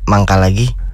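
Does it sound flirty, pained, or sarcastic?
pained. It is said in a pained, strained tone.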